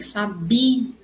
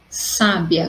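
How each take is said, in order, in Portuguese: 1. A sílaba tônica é a do meio. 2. A sílaba tônica é a primeira. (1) "a sílaba mais forte vai ser o bi" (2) "com acento no sa"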